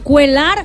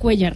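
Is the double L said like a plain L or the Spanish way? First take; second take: plain L; Spanish way. First: The double L is said as a plain L. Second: The double L is said the Spanish way. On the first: This is how people in Brazil say the name. The speaker calls it wrong. "en Brasil le dicen cuelar" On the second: This is how the name is really said. The speaker calls it right. "enseñó a la gente que es cuellar"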